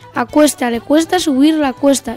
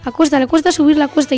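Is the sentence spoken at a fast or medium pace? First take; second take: medium; fast. First: It is spoken at a medium pace. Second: It is spoken at a fast pace. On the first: "Vamos con la velocidad media" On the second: "Vamos con la velocidad alta"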